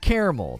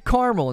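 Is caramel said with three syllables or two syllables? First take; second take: three; two. First: All three syllables are said in full. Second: The middle vowel is dropped, giving two syllables.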